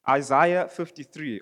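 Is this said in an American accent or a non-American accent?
non-American. It is said in a non-American accent.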